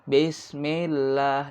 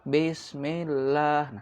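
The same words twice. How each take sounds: First: The i vowels are spoken clearly, lips smiling. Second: The i vowels are spoken carelessly and unclearly. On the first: The speaker calls it right. "Maka i itu harus kita perjelas, jangan e" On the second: The speaker calls it wrong. "karena bacanya bareng-bareng jadi ngasal"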